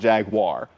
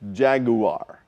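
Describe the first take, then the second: First: The word is said with two syllables. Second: The word is said with three syllables. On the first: The speaker calls it wrong. "So it's not Jaguar" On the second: The speaker calls it right. "It is three syllables"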